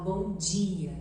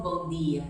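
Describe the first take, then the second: First: "bom dia" with "dia" said as a soft "djia"; soft palatal d. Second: "bom dia" with a hard, dry "d" in "dia"; dry Brazilian d. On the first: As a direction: let the "d" in "dia" slide into "dj". ("bom dia" com o d molhadinho, "djia") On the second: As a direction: say "bom dia" with a plain dental "d". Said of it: "eu não falo seco". ("bom dia" com o d seco) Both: Shown as a demonstration.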